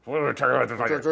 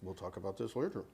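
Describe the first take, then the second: First: Louder teasing repeat; loud echo. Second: Hushed mutter through still lips; lips barely moving. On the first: Pretend. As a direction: blurt the aside out loud. Echoing the muttered line aloud. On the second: Real, not acted. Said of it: "use your ventriloquist voice".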